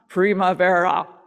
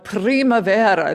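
First: The R is an American-style R. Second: The R is rolled. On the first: The speaker calls it wrong. "not primavera. No Kansas R's" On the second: The speaker calls it right. "Be sure to roll the R's. I want primavera"

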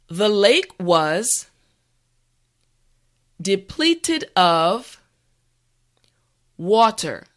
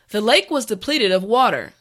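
First: The sentence is said slowly and carefully. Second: The sentence is said at a natural speed. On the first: "this time repeat after me" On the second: "this time we will go at a more natural pace"

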